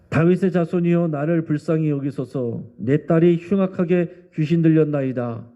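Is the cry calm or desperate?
calm. It is said calmly, without urgency.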